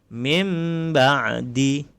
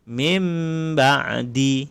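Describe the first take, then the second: No difference in how they are said.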